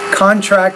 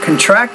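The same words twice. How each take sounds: First: The stress falls where the noun has it. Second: The stress falls where the verb has it. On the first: It is used as a noun. "contract is a noun" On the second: It is used as a verb. "Contract is a verb"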